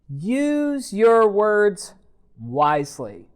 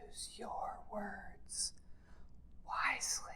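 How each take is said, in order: First: It is spoken in a normal full voice. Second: It is spoken in a soft whisper.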